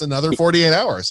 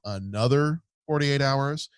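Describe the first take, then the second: First: The phrase sounds upbeat and enthusiastic. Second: The phrase sounds weary and unenthusiastic. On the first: More of this is something to look forward to. "hey, it's" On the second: Sitting through more of this is a chore.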